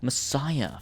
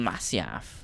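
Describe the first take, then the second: First: The name sounds like the word messiah. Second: The name ends with an f sound. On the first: "What the fuck's Messiah?" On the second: "it's called Masyaf"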